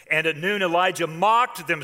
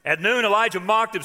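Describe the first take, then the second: First: Said in the usual way. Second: Mocked hit higher and louder; stress on mocked. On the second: Shown as a demonstration. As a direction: punch the word mocked on the retelling.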